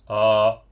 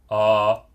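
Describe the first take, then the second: Both takes have the same delivery.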